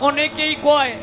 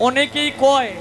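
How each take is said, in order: No difference in how they are said.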